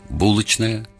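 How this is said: It is said with the Petersburg pronunciation. "Питерский выговор"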